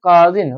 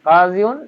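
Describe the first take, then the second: First: The word ends with a short -in ending. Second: The word ends with a full -iyun ending. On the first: The speaker calls it right. "এর নরমাল অবস্থা হচ্ছে কাজিন" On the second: The speaker calls it wrong. "এটা এভাবে শো করে না"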